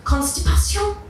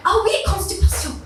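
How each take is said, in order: First: "Constipation?" said the French way, high and rising, kon-stee-pa-SYON; high panicked question, "Constipation?" pronounced as French; panicked French attempt. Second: "constipation" pronounced the French way, high, kon-stee-pa-SYON; imitating the French assistant's high "Oh oui, constipation"; French pronunciation. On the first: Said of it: "looked at this poor woman and went". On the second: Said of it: "That's how you pronounce it".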